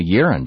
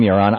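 First: "Yaron" as YEER-un; former mispronunciation. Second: "Yaron" as yaw-RON; careful pronunciation. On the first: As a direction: stress the first syllable of "Yaron", weak second vowel. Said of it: "I'd been calling you Yaron before". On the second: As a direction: stress the second syllable of "Yaron", open vowel. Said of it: "Tell me how to pronounce". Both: Shown as a demonstration.

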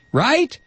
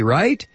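First: RIGHT squeaked up very high; mock insistent question. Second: RIGHT raised with a questioning lift; leading question. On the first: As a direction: push "Right" far higher, as mock disbelief. Repeated mock question before "Wrong. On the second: Acted. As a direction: ask "right" high, fishing for agreement. Rhetorical question, answered "Wrong.

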